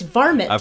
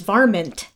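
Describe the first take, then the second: First: No n sound is heard before the final t. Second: An n sound is heard before the final t. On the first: "I've never pronounced it that way. It's varmint" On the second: "I'd never heard it pronounced with the N"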